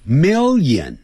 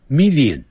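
First: "Million" as a short "mel-yen", two syllables; clipped, natural "Million"; correct million. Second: "million" spelled out as three syllables, "mi-li-on"; wrong million. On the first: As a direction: say "Million" with "li" as a glide. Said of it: "不要念成million". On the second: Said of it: "不要念成". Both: Shown as a demonstration.

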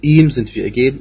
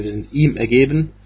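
First: "ihm" up front, punched louder; stress on IHM. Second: Said in the usual way. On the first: Shown as a demonstration. Teacher showing listeners the emphasis in the verse, stressed "ihm". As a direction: lean hard on the opening "ihm". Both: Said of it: "hier ist eine Betonung".

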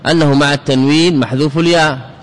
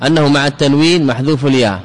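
Both takes have the same delivery.

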